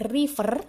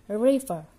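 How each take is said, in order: First: "river" with a hard, clearly trilled R; "river" with an over-distinct Indonesian R; wrong, rolled R. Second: "river" with the R indistinct, tongue slightly raised; tucked English R. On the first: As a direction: show the mistake: roll the R in "river". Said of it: "Jadi R-nya tidak jelas, bukan river". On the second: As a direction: draw out "river" slowly, R held inside the mouth. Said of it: "Jadi R-nya tidak jelas". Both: Shown as a demonstration.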